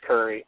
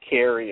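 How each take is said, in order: First: The first vowel sounds like 'ur'. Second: The first vowel sounds like 'air'. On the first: "like in D.C., they don't pronounce the R's" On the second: "instead of Carey"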